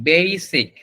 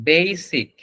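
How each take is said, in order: No difference in how they are said.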